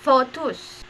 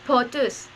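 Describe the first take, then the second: First: The word begins with an f sound. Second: The word begins with a p sound. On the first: The speaker calls it right. "This is pronounced by photus" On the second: The speaker calls it wrong. "sometimes you we will um, think that is, that the pronunciation is potus, but not"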